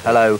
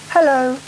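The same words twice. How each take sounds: First: It is said in a strong, manly voice. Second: It is said in a light, girlish voice.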